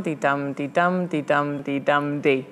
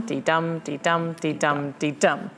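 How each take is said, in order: First: "dee-dum" stressed on "dum", ending on a lone unstressed "dee"; feminine ending. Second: "dee-dum" with the stress on "dum", even and steady; iambic rhythm. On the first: Showing a feminine ending, an extra unstressed "dee". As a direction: beat out "dee-dum" then trail off on a weak "dee". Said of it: "a feminine ending would go dee-dum". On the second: Explaining a normal iambic line, stress "dum" each time. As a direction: tap out "dee-dum" with a regular beat on "dum". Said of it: "the iambic goes dee-dum". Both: Shown as a demonstration.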